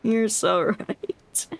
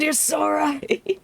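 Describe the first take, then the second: First: Slow, flat deadpan; dry, unimpressed echo; deadpan agreement. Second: High, slow, gushing; hammed-up eager agreement; mock gushing agreement. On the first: Pretend. Mock agreeing with officers. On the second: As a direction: gush along in a high mock voice.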